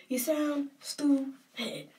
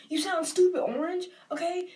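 First: "You sound stupid" drawn out, high and deliberate; slow, emphatic scolding. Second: High, louder jab; scolding. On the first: Viewer driving the insult home to a candidate, slow and emphatic. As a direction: stretch out "stupid" to drive it home. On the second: Viewer telling off a candidate for interrupting, loud scolding. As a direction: throw the insult out high and loud. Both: Real, not acted.

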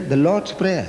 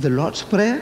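First: Said in the usual way. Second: "The Lord's Prayer?" lifted high at the end as a question; puzzled question. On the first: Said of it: "It says here". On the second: Retold or imitated. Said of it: "I said".

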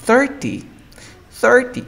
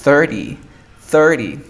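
First: Thirty with a clear T, high; "thirty" keeping the T after R; careful full T. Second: Thirty said "thir-ee", louder; "thirty" gliding from R into vowel; native-like reduction. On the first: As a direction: say "thirty" as written, crisp T. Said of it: "Está correctamente pronunciado". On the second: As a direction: say "thirty" without the T. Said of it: "sonar como un nativo dirías". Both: Shown as a demonstration.

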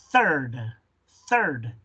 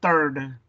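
First: "third" with tongue on teeth for th; correct blown th. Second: "third" begun with a hard T; non-native "third", no th. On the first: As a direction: blow the th starting "third". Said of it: "vas a soplar". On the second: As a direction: mispronounce "third" like "turd". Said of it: "lo pronuncias como si fuera una T". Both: Shown as a demonstration.

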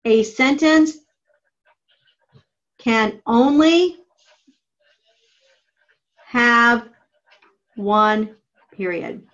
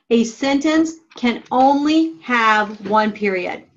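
First: Slow dictation. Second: Slow repeat. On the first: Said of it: "and write". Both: Shown as a demonstration.

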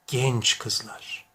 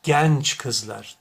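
First: Genç kızlar with a closed, narrow e. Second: Genç kızlar with an open æ sound. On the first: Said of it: "doğrusu nedir?". (kapalı e ile Genç kızlar) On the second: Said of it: "dersem bu telaffuz yanlış olur". (açık e ile Genç kızlar) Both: Shown as a demonstration.

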